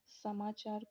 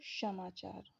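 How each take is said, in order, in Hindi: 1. शब्द 's' ध्वनि से शुरू होता है। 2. शब्द 'sh' ध्वनि से शुरू होता है। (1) "सा को" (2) "पहाड़ी जिलों में सा को श बोलते हैं"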